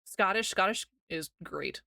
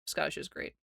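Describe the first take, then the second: First: Said in the usual way. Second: Unvoiced whisper, much softer. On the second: Real, not acted. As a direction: whisper it like a secret.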